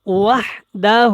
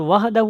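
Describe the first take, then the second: First: وحدہ drawn out slowly as wahda, no final hu; correct pronunciation. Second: وحدہ said quickly as wahdahu, the mistake to avoid; wrong pronunciation. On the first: Teacher giving the correct form after the mistake, careful وحدہ. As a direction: say وحدہ slowly and clearly, ending on a. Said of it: "یہ بہت زیادہ غلط ہے". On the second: Teacher showing the learners' mistake, wrong وحدہ. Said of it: "وحدہ بھی نہیں پڑھنا". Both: Shown as a demonstration.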